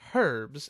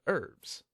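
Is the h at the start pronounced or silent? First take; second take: pronounced; silent. First: The word begins with an audible h sound. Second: The word begins with no h sound. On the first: This is the British way of saying it. "in the U K they pronounce it as herbs" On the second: This is the American way of saying it. "instead of herbs"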